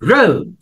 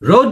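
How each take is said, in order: First: The vowel is said long. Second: The vowel is said short. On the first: The speaker calls it right. "তখন উচ্চারণটা একটু long হয়" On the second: The speaker calls it wrong. "না"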